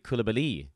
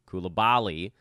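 First: The stress falls on the last syllable. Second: The stress falls before the last syllable. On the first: This is the French pronunciation. The speaker calls it right. "the accent actually is on the last syllable" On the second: This is the Americanized pronunciation. The speaker calls it wrong. "Koulibaly is how we do it here in the States"

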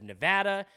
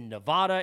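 First: It is pronounced the way locals say it. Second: It is pronounced with a New York accent. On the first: The speaker calls it right. "instead of Nevada" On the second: The speaker calls it wrong. "because of my bad accent, I said, I'm from Long Island, I said Nevada"

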